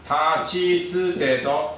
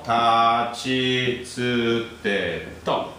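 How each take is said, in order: First: Said in the usual way. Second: Tachi tsu te to said slowly, syllable by syllable; slow recital. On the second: Shown as a demonstration. Teacher drilling the row for students, slow and deliberate. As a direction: spell out tachi tsu te to slowly so the class catches tsu. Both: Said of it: "remember tsu".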